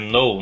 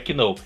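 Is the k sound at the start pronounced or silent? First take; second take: silent; pronounced. First: It starts with an n sound, no k. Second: It starts with a k sound before the n. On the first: The speaker calls it right. "Não pronuncie o K, tá? É know" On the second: The speaker calls it wrong. "não é que know"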